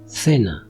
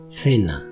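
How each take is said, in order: First: The first consonant sounds like English th. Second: The same.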